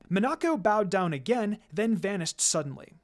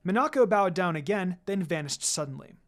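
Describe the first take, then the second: No difference in how they are said.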